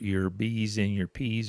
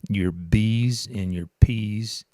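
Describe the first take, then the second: First: The B and P sounds pop softly. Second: The B and P sounds pop loudly. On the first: The speaker calls it right. "are not as as bad" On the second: The speaker calls it wrong. "if you talk directly into the microphone and your your breath will your B's and your P's, and sorry about that"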